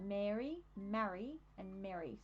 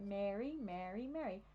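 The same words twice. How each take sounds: First: Long air in Mary, short A in marry, short E in last Mary; three distinct vowels. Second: Mary, Mary, Mary all sounding alike; American merged vowels. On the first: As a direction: separate Mary, marry and Mary clearly. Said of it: "So we've got the at and the e". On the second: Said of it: "long vowels in the American accent". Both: Shown as a demonstration.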